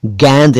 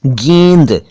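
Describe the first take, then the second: First: "गेंद" mispronounced as gaend; broad ai in "गेंद"; wrong open vowel. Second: "गेंद" corrected to geynd; correct close vowel. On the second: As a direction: say "गेंद" with a narrow ay. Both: Shown as a demonstration. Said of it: "गेंद नहीं".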